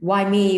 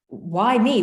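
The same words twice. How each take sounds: First: It sounds resentful, complaining about pain. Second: It sounds wondering, amazed at being chosen.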